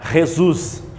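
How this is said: The name is pronounced the Spanish way. "do espanhol"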